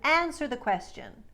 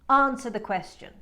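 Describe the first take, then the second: First: The R is pronounced and the A is flat. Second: The R is dropped and the A is broad. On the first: "instead of" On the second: "in transatlantic, she says"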